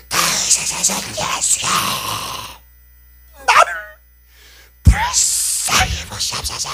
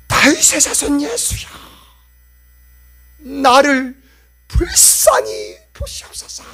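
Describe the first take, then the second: First: Crying out louder. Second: Crying out. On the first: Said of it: "더욱 큰 소리로". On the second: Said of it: "라고 해서 소리칩니다". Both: Acted.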